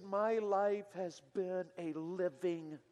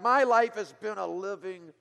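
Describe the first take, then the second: First: Slow, hushed, bitter "My life has been a living,"; a young man's quiet bitterness, drawn out; bitter quiet quote. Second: Loud, slow bitter outburst on "My life has been a living,"; a young man's loud, bitter complaint about his life; spat out bitterly. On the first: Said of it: "came out with such bitterness". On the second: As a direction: spit the words out in anger. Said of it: "he spat those words out again". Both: Retold or imitated.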